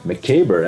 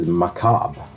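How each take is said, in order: First: The word is said with an American-sounding ending. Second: The word is said with a French-sounding ending. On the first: The speaker calls it wrong. "that sounds American" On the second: The speaker calls it right. "you should say macabre. Okay, it's from French"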